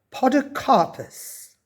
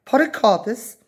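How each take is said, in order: First: Podocarpus sounded out slowly, syllable by syllable, falling at the end; slow careful reading. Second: Podocarpus repeated higher and quicker, baffled; puzzled echo. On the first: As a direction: read Podocarpus off the sign slowly. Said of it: "which Lavernia read". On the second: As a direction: toss Podocarpus back in confusion. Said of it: "said Roosevelt". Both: A narrator's reading.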